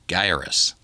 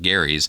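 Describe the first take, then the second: First: The first syllable sounds like 'guy'. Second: The first syllable sounds like 'gair'. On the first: The speaker calls it right. "it's pronounced Gyrus" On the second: The speaker calls it wrong. "mistake uh, pronouncing that word"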